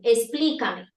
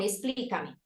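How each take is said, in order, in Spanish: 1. Se dice con una voz fuerte y severa. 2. Se dice con una voz suave y amable. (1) "esa figura con un tono de voz fuerte que me señala" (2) "ve una persona en la que puede confiar"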